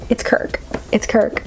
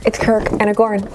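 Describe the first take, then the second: First: Giddy whispered reveal. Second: Said in the usual way. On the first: Real, not acted. Vlogger revealing the Kirk figure to viewers, giddy whisper. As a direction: whisper it like a delighted secret.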